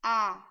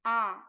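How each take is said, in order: First: The vowel is short, as in cat. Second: The same.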